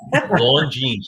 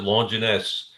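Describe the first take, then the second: First: The name ends with an 'ines' sound. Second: The name ends with a 'nus' sound. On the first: This is the actual pronunciation. The speaker calls it right. "It's Longines" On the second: This is the childhood pronunciation. The speaker calls it wrong. "As a kid, I always pronounce it Longinus"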